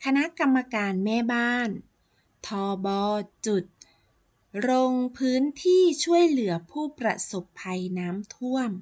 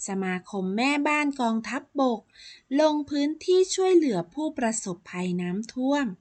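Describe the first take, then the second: First: ทบ. spelled out letter by letter, then จุด for the dot; abbreviation as written. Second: กองทัพบก said as complete words; abbreviation in full. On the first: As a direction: read ทบ. as the letter names thor-bor plus "jut". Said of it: "คำที่ใช้อักษรย่อ". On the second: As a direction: model reading with กองทัพบก spoken out in full. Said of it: "ต้องอ่านออกเสียงว่า". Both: Shown as a demonstration.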